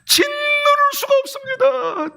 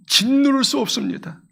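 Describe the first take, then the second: First: Wailing lament. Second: Said in the usual way. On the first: Acted. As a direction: stretch it out as if weeping uncontrollably. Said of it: "통곡할 수밖에 없습니다". (통곡하듯 길게)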